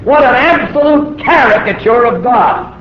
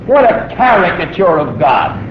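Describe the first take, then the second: First: "absolute" higher and louder; indignant emphasis. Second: Said in the usual way. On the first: Real, not acted. Preacher repeating the point, indignant and louder. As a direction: hit "What an absolute caricature" hard, rising.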